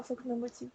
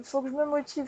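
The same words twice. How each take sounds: First: Much softer, under her breath; muttered to herself. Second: Said in the usual way. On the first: Real, not acted. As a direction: repeat it quietly to yourself. Se répète, pour elle-même. (beaucoup plus bas, pour soi)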